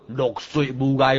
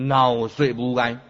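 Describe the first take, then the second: First: The first syllable sounds like 'lok'. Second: The first syllable sounds like 'ngau'. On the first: The speaker calls it wrong. "茫读做落水无碍哦，这破音字" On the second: The speaker calls it right. "汉文音读熬水无碍"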